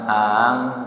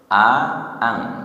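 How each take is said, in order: First: The vowels merge into a single onset. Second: Two separate vowel onsets are clearly sounded. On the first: The speaker calls it wrong. "tidak dibaca ang" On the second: The speaker calls it right. "harus berjelas a-a, ada dua hamzah"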